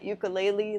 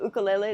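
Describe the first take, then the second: First: It is said with the US mainland pronunciation. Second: It is said with the local Hawaiian pronunciation. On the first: This is how people on the mainland say it. "like you say in the mainland" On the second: This is how people here say it. "We call it ukulele"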